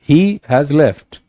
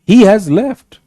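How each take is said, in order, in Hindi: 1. यह सामान्य, सीधे लहजे में कहा गया है। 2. यह गुस्से वाले लहजे में कहा गया है। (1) "it's a statement" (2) "you sound angry"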